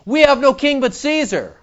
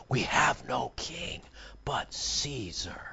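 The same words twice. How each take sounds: First: Higher, mocking repeat of the priests; scornful quote. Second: A soft, slow whisper; hushed whisper. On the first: Preacher mocking the chief priests' answer with scorn. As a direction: throw their words back with scorn. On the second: A narrator's reading. Preacher reading the chief priests' reply in a whisper. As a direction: breathe it out slowly, barely voiced.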